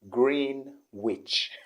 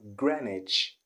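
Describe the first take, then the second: First: A W sound is pronounced in the middle. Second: No W sound is pronounced in the middle. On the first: The speaker calls it wrong. "He always called it Greenwich" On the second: The speaker calls it right. "the W isn't pronounced, is omitted"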